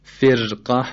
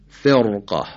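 First: فرقه with a thin, trilled r; wrong light ra. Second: فرقه with a thick, dark r; weight the r before qaf in فرقه; heavy ra. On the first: Teacher showing the mistake, thin light r in فرقه. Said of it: "غلطه". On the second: Teacher showing the correct reading, heavy r in فرقه. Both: Shown as a demonstration.

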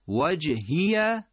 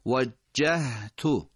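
First: وجهیه slowly recited, higher; slow recited model. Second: وجهتو very slow with a held jim; slow, recited وجهتو; drawn-out demo. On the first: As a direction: lean on the doubled jim in وجهیه. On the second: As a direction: hold the jim, then release the ha. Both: Shown as a demonstration. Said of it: "جیم تشدید داره".

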